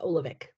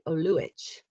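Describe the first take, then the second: First: The name is said the American way. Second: The name is said the European, Croatian way.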